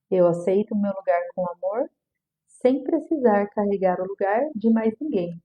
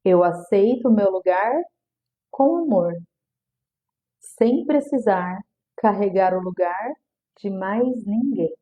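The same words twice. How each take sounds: First: Said in the usual way. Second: Slow, deliberate affirmation, each phrase spaced; calm repeated affirmation, drawn out. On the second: Shown as a demonstration. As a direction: say it slowly like a mantra. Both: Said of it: "Vou repetir".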